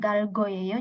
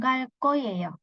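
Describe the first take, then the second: First: The consonant after gal is plain and soft. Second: The consonant after gal is tense and hard. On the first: The speaker calls it wrong. "lebih natural bukan galgoyeyo" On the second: The speaker calls it right. "jadi langsung galkoyeyo"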